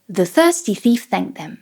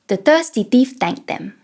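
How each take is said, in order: First: The th sounds are soft and airy, tongue-behind-teeth. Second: The th sounds are replaced by t and d. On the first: "place the tongue behind the teeth and try to add some air" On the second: "Let's try it with T and D"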